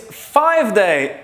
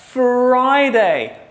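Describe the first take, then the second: First: The first syllable sounds like 'five'. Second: The first syllable sounds like 'fry'. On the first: The speaker calls it wrong. "No, not five day" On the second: The speaker calls it right. "but Friday"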